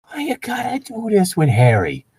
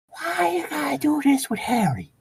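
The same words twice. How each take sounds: First: High, put-on voice pleading; mock indignant plea. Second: High, breathless whispered plea; mock whisper. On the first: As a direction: whine it up high in mock dismay. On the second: Whispered repeat of line 20.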